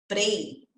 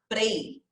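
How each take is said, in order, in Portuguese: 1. O P e o R se juntam em um som só, do jeito português. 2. O P e o R se juntam em um som só, do jeito português.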